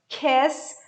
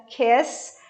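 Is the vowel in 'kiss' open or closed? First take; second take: open; open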